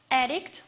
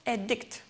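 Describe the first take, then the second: First: "addict" with the first syllable stressed, AD-dict. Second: "addict" with the last syllable stressed, ad-DICT; light first syllable, lean on the end of "addict". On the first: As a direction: noun form "addict", punch the AD. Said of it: "has the first syllable stressed". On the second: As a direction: verb form "addict", weight on DICT. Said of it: "the last syllable is stressed". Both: Shown as a demonstration.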